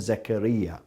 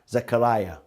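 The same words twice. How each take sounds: First: The name is said in its Arabic form. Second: The name is said in its English Biblical form. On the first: This is the name Muslims use. "the Muslims call him Zechariah. The difference in pronunciation" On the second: This is the name used in the Bible. "His name in the Bible is Zechariah"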